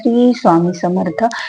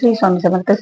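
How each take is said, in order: First: It is calm, unhurried and clear, at medium volume. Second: It is rushed and slurred, words hard to make out. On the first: The speaker calls it right. "शांत आवाजात ... मध्यम आवाज ... हळूवार" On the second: The speaker calls it wrong. "हे असला जप झाला का? तुम्हाला तरी तुमचा उच्चार कळायला का"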